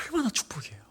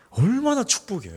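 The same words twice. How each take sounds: First: Unvoiced, hushed 얼마나 축복이에요; whispered repeat. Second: Said in the usual way. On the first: Shown as a demonstration. Preacher to congregation, repeating the blessing as a whisper. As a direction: breathe 얼마나 축복이에요 as a secret.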